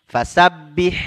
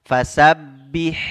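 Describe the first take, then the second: Both takes have the same delivery.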